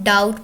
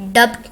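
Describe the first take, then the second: First: No b sound is heard in the word. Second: A b sound is heard before the t. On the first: The speaker calls it right. "डाउट पढ़ते हैं" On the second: The speaker calls it wrong. "डब्ट नहीं पढ़ते इसको हम"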